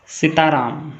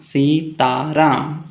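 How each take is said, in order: First: Said in the usual way. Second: सीताराम in three separate beats, सी-ता-राम; split into syllables. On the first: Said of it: "म्हणजेच syllable पाडा". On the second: Shown as a demonstration. Teacher showing three syllables, सीताराम split as सी-ता-राम. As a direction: stretch सीताराम out part by part, सी, ता, राम. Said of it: "three syllables".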